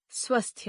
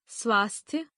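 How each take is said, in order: First: स्वस्थ with a short first vowel; mispronounced. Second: Said in the usual way. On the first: Shown as a demonstration. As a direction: say स्वस्थ as "svasthya", no long "aa". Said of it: "अशुद्ध". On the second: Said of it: "शुद्ध".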